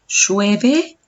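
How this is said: The pitch rises like a question. It asks whether it is raining. "estoy diciendo una pregunta"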